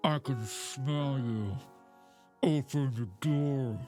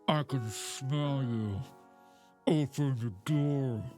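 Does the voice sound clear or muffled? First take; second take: muffled; muffled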